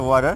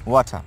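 First: The T in the middle sounds like a soft D. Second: The T in the middle sounds like a clear T. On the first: This is the American pronunciation. "In American style, We can say water" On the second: This is the British pronunciation. "Or in British style, we can say water"

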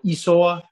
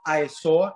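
First: It begins with an 'ee' sound. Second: It begins with an 'eye' sound. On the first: The speaker calls it right. "it's E. So Isoa" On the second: The speaker calls it wrong. "the I is not I saw"

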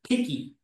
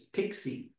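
First: The middle consonant is a plain k sound. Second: The middle consonant is a ks sound. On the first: The speaker calls it right. "it's actually called Picky, as in picture" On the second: The speaker calls it wrong. "They pronounce it as Pixie"

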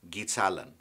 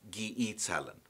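First: The second vowel is swallowed into one syllable. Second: The second vowel is said as its own syllable. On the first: This is how fluent speakers say it. "Fluent Chamorro speakers will often shorten the E or swallow it when speaking" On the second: This is the full form. "instead of"

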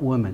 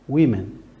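First: The first syllable sounds like 'woo'. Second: The first syllable sounds like 'wim'. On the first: The speaker calls it wrong. "not women, no" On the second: The speaker calls it right. "pronunciation, women"

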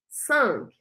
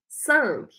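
No difference in how they are said.

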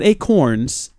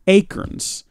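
First: Said with a standard American pronunciation. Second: Said with a regional Southeast Texas pronunciation. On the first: The speaker calls it right. "Not acorns" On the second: The speaker calls it wrong. "My memaw has acorns"

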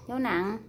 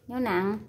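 The two takes are said the same way.

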